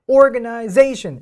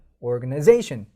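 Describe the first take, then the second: First: Both stressed syllables sound equally strong. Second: The stress on 'za' is clearly the strongest. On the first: The speaker calls it wrong. "organization 이렇게가 아니라" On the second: The speaker calls it right. "zation이 훨씬 더 센 강세를 가져가게 된다는 겁니다"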